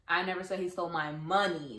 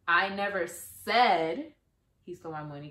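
First: The stress is on "money". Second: The stress is on "said".

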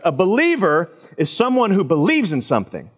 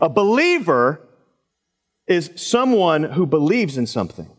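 First: It is said at normal speed. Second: It is said slowly and deliberately.

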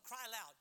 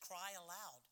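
First: It is said loudly, with great force. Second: It is said softly, with little force. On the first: The speaker calls it right. "The Lord said, no, cry aloud" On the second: The speaker calls it wrong. "Not like this"

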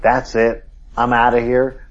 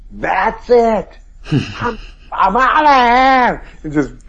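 First: It is spoken angrily at normal volume. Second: It is screamed at full volume. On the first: "he like was angry and said" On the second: "he screamed at the top of his lungs at the guy"

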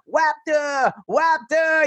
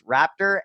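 First: The word is pronounced with a lisp. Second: The word is pronounced clearly, without a lisp.

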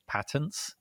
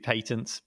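First: It is said with an American pronunciation. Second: It is said with a British pronunciation. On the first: "I think in America it's patents" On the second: "British English would be patents"

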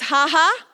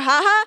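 First: The laugh syllables are said slowly. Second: The laugh syllables are said fast.

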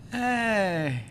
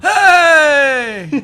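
First: It is said flatly, with little energy. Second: It is said upbeat, with lively energy.

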